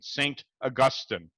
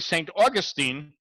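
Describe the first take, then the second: First: Augustine is said with the British pronunciation. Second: Augustine is said like the resort-town name. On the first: It names the church father. The speaker calls it right. "I'm saying it with the British pronunciation" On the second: It names a winter vacation town. The speaker calls it wrong. "you'd think that's where everybody from Highland Park goes during the winter"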